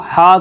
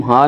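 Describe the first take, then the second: First: "ہا" with a strong h from the throat; correct way. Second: "ہا" as a light plain h; wrong way. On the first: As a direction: breathe "ہا" out hard from the throat. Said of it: "حلق سے نکال کر". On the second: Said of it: "ہا نہیں کہہ سکتے". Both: Shown as a demonstration.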